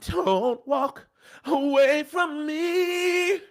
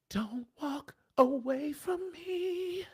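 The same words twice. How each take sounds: First: It is said louder and desperate. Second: It is said softly, pleading.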